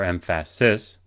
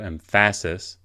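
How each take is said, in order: First: The stress is on the third syllable. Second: The stress is on the second syllable. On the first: "as opposed to" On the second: "as opposed to"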